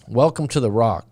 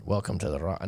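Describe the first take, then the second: First: Said in the usual way. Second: Half-hearted Scottish accent, softly; attempted Scottish accent. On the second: Shown as a demonstration. Host doubtfully trying a movie quote for a viewer, half-hearted Scottish accent. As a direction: tentatively try a Scottish accent, quieter. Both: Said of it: "I don't know if I can do the Scottish accent".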